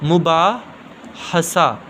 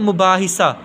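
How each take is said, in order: First: An a vowel follows the h sound. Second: An i vowel follows the h sound. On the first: The speaker calls it right. "ज़ेर नहीं आनी बल्कि ज़बर आना है" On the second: The speaker calls it wrong. "इसके नीचे ज़ेर लगाते हैं तो हम गलत करते हैं"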